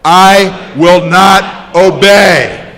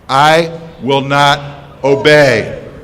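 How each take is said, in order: First: It is said louder. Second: It is said at normal volume.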